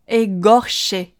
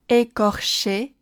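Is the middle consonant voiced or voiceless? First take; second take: voiced; voiceless. First: The middle consonant is voiced with strong vibration. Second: The middle consonant is voiceless and unaspirated. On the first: The speaker calls it wrong. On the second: The speaker calls it right.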